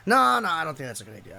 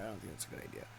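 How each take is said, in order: First: Said in the usual way. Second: Breathless whisper under his breath; whispered repeat. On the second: Retold or imitated. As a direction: repeat it to yourself, barely voiced.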